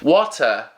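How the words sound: It is said with a British accent. "in British English"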